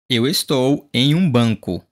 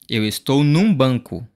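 First: Em and um are said as separate words. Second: Em and um merge into one word, num.

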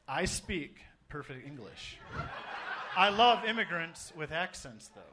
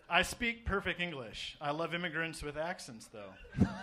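First: It is read slowly, with pauses. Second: It is read quickly, without pauses.

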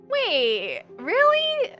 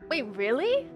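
First: It is said in a posh New York accent. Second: It is said in the speaker's ordinary accent.

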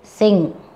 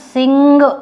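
First: It ends on ng with no released g. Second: A hard g is released after the ng. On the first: The speaker calls it right. "It is sing. Don't bring your G outside" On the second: The speaker calls it wrong. "This is not a sing"

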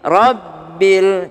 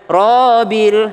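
First: The first vowel sounds like a thin 'a'. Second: The first vowel sounds like a rounded 'o'. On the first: The speaker calls it right. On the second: The speaker calls it wrong. "jangan Robil, salah"

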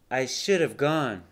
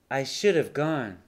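No difference in how they are said.

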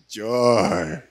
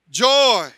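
First: It is said in a flat, sad tone. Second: It is said in a bright, joyful tone.

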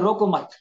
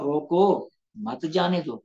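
First: The pause comes after 'mat'. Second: The pause comes after 'roko'.

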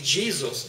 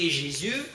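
First: The name is pronounced the English way. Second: The name is pronounced the French way. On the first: "по-английски Jesus" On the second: "по-французски Jésus"

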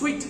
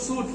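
First: The word is said like 'sweet', with a w. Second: The word is said like 'soot', without a w. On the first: The speaker calls it right. "It's সুইট" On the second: The speaker calls it wrong. "It's not সুট"

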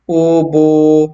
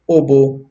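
First: The vowels are drawn out long. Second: The vowels are kept short. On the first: The speaker calls it wrong. "ganun ay mali na yung pagbasa natin. Kasi nga, nalagyan na natin siya ng wow na madda" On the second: The speaker calls it right. "Kailangan mabasa natin ito na may maikli lang na katinig"

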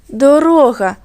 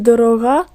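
First: The stress is on the second syllable. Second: The stress is on the third syllable. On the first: The word means road. The speaker calls it right. "Дорога у цьому вислові – це шлях" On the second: The word means expensive. The speaker calls it wrong. "Тут теж я наголос, напевно, неправильно поставила"

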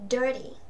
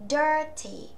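First: The t is softened into a quick d-like flap. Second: The t in the middle is clearly pronounced. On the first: "các bạn mà hay phát âm quen nếu anh Mỹ ấy" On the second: "chúng ta sẽ đọc rõ đuôi T ra"

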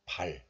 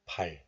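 First: The syllable ends in an l sound. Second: The same.

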